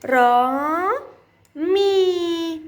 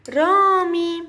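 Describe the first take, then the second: First: Two long, held syllables with a pause between. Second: رامي run together as one word; syllables blended. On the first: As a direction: sound out را, pause, then مي, vowels stretched. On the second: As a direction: join را and مي without a break. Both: Shown as a demonstration. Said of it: "سأقرأهم معًا".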